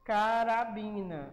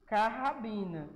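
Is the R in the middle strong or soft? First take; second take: soft; strong. First: The middle R is a soft, light tap. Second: The middle R is a strong, rough sound. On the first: The speaker calls it right. "então é só um R" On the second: The speaker calls it wrong. "Deixa eu botar dois R aqui"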